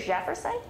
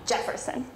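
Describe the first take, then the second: First: The name begins with a soft 'zh' sound. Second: The name begins with a hard 'dj' sound. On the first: "it comes with a soft J" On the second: "some people put in the D to make Jefferson"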